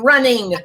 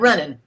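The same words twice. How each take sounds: First: The ending is a full -ing sound. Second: The ending drops the final g sound. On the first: "we put er on the end of the word and ing" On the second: "not running"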